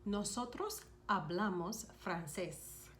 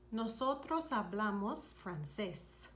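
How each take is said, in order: First: Said in the usual way. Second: "Nosotros hablamos francés" slowed for learners to copy; slow it down so each syllable of "Nosotros hablamos francés" is clear; slow repeat. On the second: Shown as a demonstration. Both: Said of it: "You would say".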